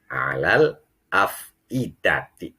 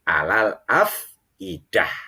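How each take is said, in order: First: The last word ends with a ti sound. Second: The last word ends with an h sound. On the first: The reading continues without stopping. "Ini kalau dibaca wa wasol" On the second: The reading stops at this word. "tetapi alal afidah"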